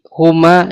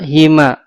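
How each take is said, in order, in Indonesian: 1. Vokal pertama adalah u. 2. Vokal pertama adalah i. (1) "bisa dhammah" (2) "bisa kasroh"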